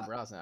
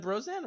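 First: "Brosnan" as BROSS-nun; short-O pronunciation. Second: "Brosnan" as BROZE-nan; long-O pronunciation. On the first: Checking the actor's name, "Brosnan" said BROSS-nun. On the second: Checking the actor's name, "Brosnan" said BROZE-nan. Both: Shown as a demonstration. Asking which pronunciation is right.

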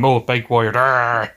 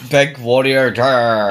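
First: Battle cry. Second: Growled Warrior war cry; battle cry. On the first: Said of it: "That's his whole thing". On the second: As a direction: roar it like the Warrior. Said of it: "the Warrior impression". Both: Retold or imitated.

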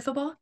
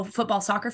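First: Football? lifted high in a questioning rise; puzzled rising football. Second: Said in the usual way. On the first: Shown as a demonstration. Checking which sport the host means, football? rising.

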